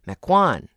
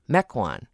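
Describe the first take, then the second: First: The stress is on the second syllable. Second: The stress is on the first syllable. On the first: The speaker calls it wrong. "I sometimes put the accent on the second syllable and say Mequon" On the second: The speaker calls it right. "instead of Mequon"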